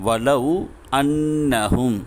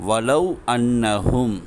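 The two takes are said the same way.

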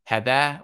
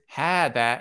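First: The first vowel is short. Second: The first vowel is long. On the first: The speaker calls it wrong. "You wouldn't pronounce it hadha" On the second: The speaker calls it right. "as if there is an alif coming after it"

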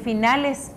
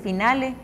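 First: The final s sound is pronounced. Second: The final s sound is dropped. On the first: The speaker calls it right. "en vez de decir finales" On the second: The speaker calls it wrong. "se omite la S y se dice finale"

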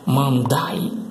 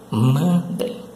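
First: The word ends with an 'eye' sound. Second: The word ends with a nasal 'em' sound. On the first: The speaker calls it wrong. "não se pronuncia dessa forma aí, não" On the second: The speaker calls it right. "A pronúncia certa é mandem"

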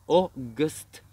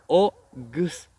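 No difference in how they are said.

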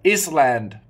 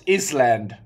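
Both takes have the same delivery.

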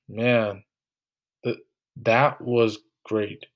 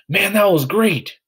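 First: It is said with a stumble and pause. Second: It is said smoothly without any break.

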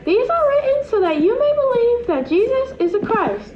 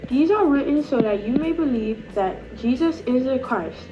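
First: It is said in a high-pitched voice. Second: It is said in an Australian accent. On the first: "Now we are going to say it in a high-pitched voice" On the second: "we're going to do an Australian accent"

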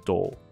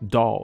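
First: It is said with a British accent. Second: It is said with an American accent. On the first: "英式发音的玩偶可能就是doll" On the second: "美式发音就是doll doll"

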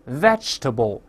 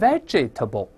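First: The middle vowel is dropped, giving three syllables. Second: The middle vowel is pronounced, giving four syllables. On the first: The speaker calls it right. "后面那个哎是不发音的" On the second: The speaker calls it wrong. "而不是vegetable"

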